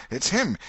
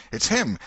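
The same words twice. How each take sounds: First: Him yelled high and loud, falling; higher excited shout. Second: Loud call of him spotting; shouted alarm. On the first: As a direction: shriek it as the crowd surges. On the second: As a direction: shout it as a crowd member. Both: Acted. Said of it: "voices shouted".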